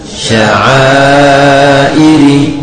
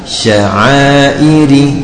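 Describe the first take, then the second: First: The long vowel is held for four counts. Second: The long vowel is held for two counts. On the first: "ukuran empat harokatnya sepanjang sya'airi" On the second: "Kalau dua harokat"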